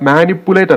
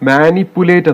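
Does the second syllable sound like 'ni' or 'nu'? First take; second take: nu; ni. First: The second syllable has a 'u' vowel sound. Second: The second syllable has an 'i' vowel sound. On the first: The speaker calls it wrong. "ഇവിടെ മാനിപ്പുലേറ്റ് അല്ല" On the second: The speaker calls it right. "മാനിപ്പുലേറ്റ് എന്നാണ് വരേണ്ടത്"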